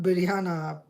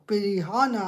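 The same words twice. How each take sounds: First: "biryana" with an opening b, like biryani; wrong pronunciation. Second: "Pirihana" with an opening p and an h; corrected pronunciation. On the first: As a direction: say "biryana" as the mistaken version. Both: Shown as a demonstration. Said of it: "Not biryana".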